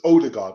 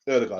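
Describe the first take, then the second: First: The name begins with an 'oh' vowel. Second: The name begins with an 'er' vowel. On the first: The speaker calls it wrong. "you would probably think it's Odegaard" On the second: The speaker calls it right. "the pronunciation is Erdegaard"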